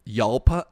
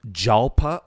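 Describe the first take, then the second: First: YALPA said with the J softened to Y; Y pronunciation. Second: JALPA said with a sounded English J; hard J pronunciation. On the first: Host trying another car-name guess, Yalpa with Y sound. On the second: Host guessing at a car name for co-host, Jalpa with hard J. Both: Shown as a demonstration. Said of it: "I don't know how it's pronounced".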